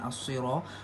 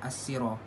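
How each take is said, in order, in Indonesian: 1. Huruf itu dimulai dengan bunyi s yang tebal dan emfatik. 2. Huruf itu dimulai dengan bunyi s yang ringan dan biasa.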